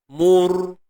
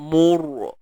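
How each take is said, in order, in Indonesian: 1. Suara mengalir bebas melewati r. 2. Suara tertahan dan berhenti di r. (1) "Biar jalan je" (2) "Tak mau bunyi tu"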